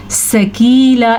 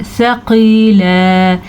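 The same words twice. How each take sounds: First: सकीला quickly with a sharp s and light k; wrong hard sa. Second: सकीला drawn out with gentle th; soft tha. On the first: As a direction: say सकीला as an everyday "sakeela". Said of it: "ऐसे नहीं पढ़ना है". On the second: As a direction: recite सकीला slowly, long ee and long end. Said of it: "नरमी से पढ़े जाने वाले". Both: Shown as a demonstration.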